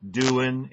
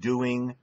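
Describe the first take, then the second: First: The final g sound is dropped. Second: The final g sound is clearly pronounced. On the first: The speaker calls it wrong. "We have a natural tendency in English to say" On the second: The speaker calls it right. "instead of"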